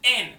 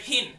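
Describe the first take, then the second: First: The word begins without an h sound. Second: The word begins with an h sound. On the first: The speaker calls it wrong. "He pronounced it en" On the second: The speaker calls it right. "the word hin"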